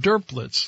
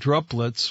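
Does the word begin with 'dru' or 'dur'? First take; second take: dur; dru. First: The word begins with the sounds 'dur'. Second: The word begins with the sounds 'dru'. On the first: The speaker calls it right. "like it was D-U-R, not D-R-U" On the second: The speaker calls it wrong. "which is the way I was pronouncing it"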